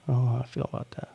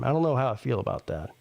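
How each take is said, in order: First: Rushed, muttered under breath; fast throwaway mutter; fast mumbled repeat. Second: Said in the usual way. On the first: Shown as a demonstration.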